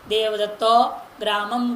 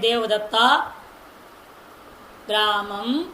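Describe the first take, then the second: First: The two words run together with almost no gap. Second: A long gap separates the two words. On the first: The speaker calls it right. "इतना व्यवधान होना चाहिए" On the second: The speaker calls it wrong. "ऐसे नहीं बोलना"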